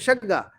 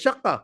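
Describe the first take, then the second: First: It has an 'a' vowel and a 'g' sound. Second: It has an 'a' vowel and a 'k' sound. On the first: The speaker calls it wrong. "शग्गा भी नहीं है" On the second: The speaker calls it right. "तो असल में है वो श"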